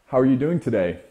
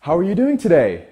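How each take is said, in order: First: "How are you doing today?" said strong, dropping off at the end; confident, falling finish; downward inflection. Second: "How are you doing today?" rising high and unsure at the end; upward inflection. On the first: Demo of the confident tone for viewers, falling at the end. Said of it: "Notice how I kinda drop it off a bit at the end". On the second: Demo of the unsure tone to his viewers, high rising. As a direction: ask it like an unsure beta, tune climbing up. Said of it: "Instead of an upward inflection like". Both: Shown as a demonstration.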